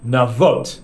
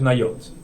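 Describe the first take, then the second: First: The middle consonant is a v sound. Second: The middle consonant is a y sound. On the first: This is how the written letters would read. The speaker calls it wrong. "It's written nun as if it's from nun vav" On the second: This is how the word is actually read aloud. The speaker calls it right. "but it's it's pronounced nayot"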